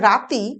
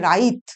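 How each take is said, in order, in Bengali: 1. শব্দটি i স্বরধ্বনি দিয়ে শেষ হয়। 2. i সরে যায় t-এর আগে, তাই শেষ হয় ব্যঞ্জনে। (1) "যেটা রাতি" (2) "ঝাড়খণ্ডী উপভাষায় উচ্চারিত হয় রাইত"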